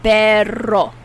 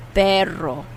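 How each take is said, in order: First: Perro said louder, with a strong trilled rolled R. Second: Perro with a trilled R at normal loudness; rolled R, repeated. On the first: Teacher showing learners how to roll the R, emphatic. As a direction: trill the R in Perro hard and clearly. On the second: Teacher repeating Perro for learners, rolled R. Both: Shown as a demonstration. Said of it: "You have to roll your tongue and get that R".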